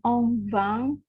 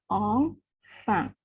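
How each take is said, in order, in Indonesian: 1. Konsonan di tengah itu bunyi V. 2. Konsonan di tengah itu bunyi F. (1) "bukan on vang" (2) "tetap dilafalkan sama seperti pada bahasa Indonesia di enfant"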